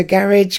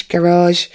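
First: Said in the usual way. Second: "garage" as guh-RAHZH, stress on the second syllable; American garage. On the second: Shown as a demonstration. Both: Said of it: "I definitely say".

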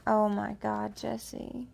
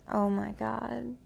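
First: Moaning the name. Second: Slow breathy moan of the words. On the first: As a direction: moan Oh my God, Jesse. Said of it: "And go ahead and moan". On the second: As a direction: moan it out slowly. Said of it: "you have at least once moaned". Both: Shown as a demonstration.

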